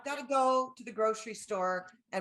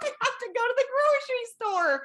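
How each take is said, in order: First: It is said in an annoyed, complaining tone. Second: It is said joyfully, with laughter.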